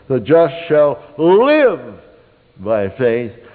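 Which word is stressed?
live. The word "live" carries the stress. "the second time, you'd underline "live,""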